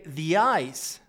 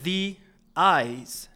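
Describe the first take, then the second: First: The two words are linked into one sound. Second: The two words are said separately with a break. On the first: The speaker calls it right. "we are going to link the two words together" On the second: The speaker calls it wrong. "We don't say the eyes"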